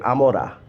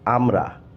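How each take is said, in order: First: An extra o vowel comes between m and r. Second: The m and r are said together without a vowel. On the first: "they say amora" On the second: "They do not actually say amra"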